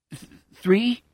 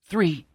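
First: Hesitant, stammered, rising three; unsure question. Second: Firmer falling three, still a little unsure; marginal assurance. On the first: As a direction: ask it unsure, stumbling on Th-. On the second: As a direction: settle on it with slight confidence. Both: Acted. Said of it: "with marginal assurance".

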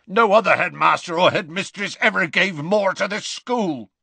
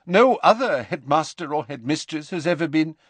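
First: Loud, raised rough growl. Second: Higher-pitched formal professor voice; stern headmistress figure. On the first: Hagrid cutting in to defend Dumbledore, growling loudly. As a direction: growl it out in fierce loyalty. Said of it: "growled Hagrid". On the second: McGonagall on the ministry's say, formal and higher. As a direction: speak formally, then break off. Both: Acted.

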